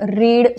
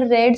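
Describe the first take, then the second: First: The vowel is long, like in 'reed'. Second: The vowel is short, like in 'red'. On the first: It is the present form, meaning to read. "रीड जो आहे हा वर्बचा first form आहे" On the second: It is the past form, meaning already read. "रेड जो आहे हा second form आणि third form"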